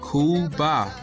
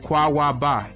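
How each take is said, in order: First: The word is said in two syllables. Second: The word is said in three syllables. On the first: This is the Yiddish pronunciation. The speaker calls it wrong. "that's the Yiddish Yiddish way of saying it" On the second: This is the Hebrew pronunciation. The speaker calls it right. "Actually, it's Kwawaba"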